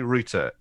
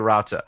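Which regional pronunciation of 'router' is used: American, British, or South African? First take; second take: British; American. First: It is said with a British pronunciation. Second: It is said with an American pronunciation. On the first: "In the UK, you say router" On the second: "In America, you say router"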